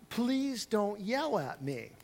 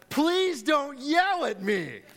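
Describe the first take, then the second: First: The phrase is said in a calm, quiet voice. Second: The phrase is yelled in a loud, angry voice. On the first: "that's not how I said it" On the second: "it actually came out as"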